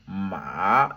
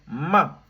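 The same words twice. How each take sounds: First: It is said with a pitch that dips, then rises. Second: It is said with a sharply falling pitch. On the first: It means horse. "avec le troisième ton" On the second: It is an insult. "Avec le quatrième ton"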